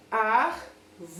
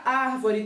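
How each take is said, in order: First: "Ar-vo-re" in three separate beats; syllable by syllable. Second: Said in the usual way. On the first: Shown as a demonstration. Teacher counting syllables for pupils, separated syllables in "Ar-vo-re". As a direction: count out "Ar-vo-re" with a gap after each syllable. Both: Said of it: "tem quantas sílabas?".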